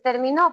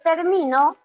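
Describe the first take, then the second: First: The stress is on the last syllable. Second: The stress is on the second-to-last syllable. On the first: "puedo decir terminó" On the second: "puedo decir termino"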